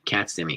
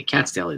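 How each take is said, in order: First: Said in the usual way. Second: Light up as you recognise the deli name; excited recognition. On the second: Real, not acted.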